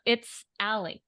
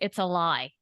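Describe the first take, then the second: First: The end is run together, sounding like 'Ally'. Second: The end is split, sounding like 'a lie'. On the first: The name was misheard. The speaker calls it wrong. "we thought the band's name, because it kind of runs together, was" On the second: This is the band's actual name. The speaker calls it right. "their band's name is"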